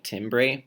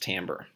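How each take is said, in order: First: The word is said just as it is spelled. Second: The word is said unlike its spelling suggests. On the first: The speaker calls it wrong. "you would read it like timbre" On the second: The speaker calls it right. "I can assure you it's pronounced timbre"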